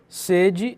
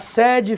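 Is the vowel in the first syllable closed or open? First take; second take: closed; open. First: The first vowel is a closed e sound. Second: The first vowel is an open e sound. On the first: It means thirst or desire. "tem um som mais fechado" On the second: It means a headquarters. "tem um som aberto, tem um timbre aberto"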